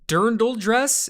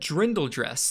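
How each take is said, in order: First: The R comes after the I: 'dirn-dl'. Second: The R comes before the I: 'drin-dle'. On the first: "Am I saying it?" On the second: "read drindle dress. I had said drindle dress nonstop"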